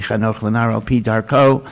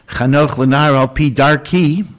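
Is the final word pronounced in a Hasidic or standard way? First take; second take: standard; Hasidic. First: The last vowel sounds like an oh. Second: The last vowel sounds like an ee. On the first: A child is trained according to the child's own way. The speaker calls it right. "really it has to be darko" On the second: A child is trained according to the teacher's way. The speaker calls it wrong.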